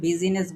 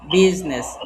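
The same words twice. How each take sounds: First: An extra vowel is said in the middle. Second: The middle vowel is dropped entirely. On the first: The speaker calls it wrong. "আমরা কিন্তু এটাকে বিজনেস বলি না" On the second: The speaker calls it right. "বিজনেস বানানের ভিতরে আয়ের উচ্চারণ হয় না"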